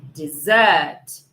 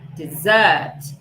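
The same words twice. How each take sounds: First: The stress is on the second syllable. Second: The same.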